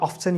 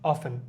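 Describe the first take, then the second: First: The t in the middle is pronounced. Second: The t in the middle is not pronounced. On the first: This is a British form. "British ইংলিশে অনেক সময় অফসেন use করা হয়" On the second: This is an American form. "American ইংলিশে এটাকে টিটাকে silent রাখা হয়"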